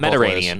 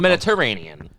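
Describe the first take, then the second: First: One syllable of the word is left out. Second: Every syllable of the word is pronounced. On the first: The speaker calls it wrong. "not ... you just adamantly must remove one syllable from that word" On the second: The speaker calls it right.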